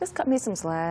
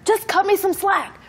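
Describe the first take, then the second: First: It is said at a normal, calm volume. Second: It is said loudly, almost yelling. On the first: "Normal voice" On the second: "Raise voice"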